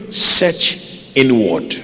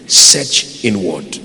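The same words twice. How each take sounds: First: "search inward" drawn out slowly; slow emphatic. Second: "Search inward" slow and lower; slow emphatic lower. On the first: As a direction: stretch "search inward" to press it home. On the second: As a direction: let "Search inward" sink in low and slow. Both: Shown as a demonstration.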